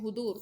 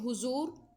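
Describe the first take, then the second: First: The middle consonant is a heavy d-like sound. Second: The middle consonant is a plain z sound. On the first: The speaker calls it right. "अरबी लहजा क्या है, दुआद का दुआद ही है" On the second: The speaker calls it wrong. "हुजूर जो है वो उसका लहजा जो है वो उर्दू लहजा है"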